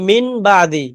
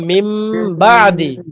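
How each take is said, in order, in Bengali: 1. প্রথম শব্দটি n ধ্বনি দিয়ে শেষ হয়। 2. প্রথম শব্দটি m ধ্বনি দিয়ে শেষ হয়। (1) "এই মি- মিন আর হবে না" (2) "এখন কি হবে মিম"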